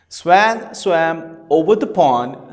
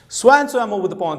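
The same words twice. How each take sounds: First: It is said at a slow pace. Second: It is said at a fast pace. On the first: "let me go it one more time slowly" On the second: "Now let's do it fast"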